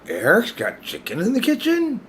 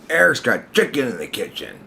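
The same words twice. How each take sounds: First: It is said in a disbelieving tone. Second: It is said in an accusing tone.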